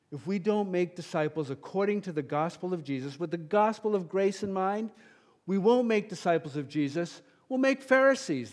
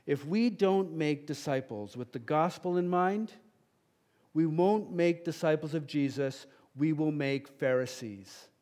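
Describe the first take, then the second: First: Same warning again, louder and higher, peaking on Pharisees; impassioned repeat. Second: Said in the usual way. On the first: Real, not acted. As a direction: escalate the warning. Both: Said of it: "get passionate on that one".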